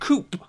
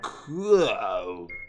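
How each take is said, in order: First: The word ends with a clear p sound. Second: The word ends on the vowel, no p.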